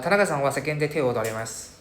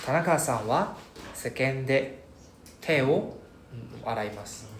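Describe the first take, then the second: First: It is said quickly with no pauses. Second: Short pauses come after each particle. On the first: The speaker calls it wrong. "so that we don't be like uh ... what you saying sia very fast" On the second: The speaker calls it right. "so you can you can hear my pauses right"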